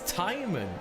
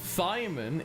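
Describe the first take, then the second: First: The name starts with a plain 't' sound. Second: The name starts with a 'th' sound. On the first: The speaker calls it right. "not a T H, the H is silent, it's Timon" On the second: The speaker calls it wrong. "us calling him Thyman is not actually accurate"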